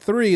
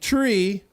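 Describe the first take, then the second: First: The word begins with a soft th sound. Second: The word begins with a hard t sound. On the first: The speaker calls it right. "they're not saying three" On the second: The speaker calls it wrong. "they're saying tree"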